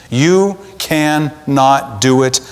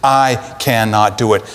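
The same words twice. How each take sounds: First: "you" leaned on, whole line slow and deliberate; YOU stressed, unhurried. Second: "I" given the weight, voice dropping lower; I stressed, lower pitch. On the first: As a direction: press the word you, slowly. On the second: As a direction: land on the word I, low and firm. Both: Shown as a demonstration.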